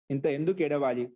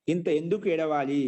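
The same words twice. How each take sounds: The two takes are said the same way.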